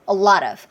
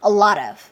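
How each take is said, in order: Both takes have the same delivery.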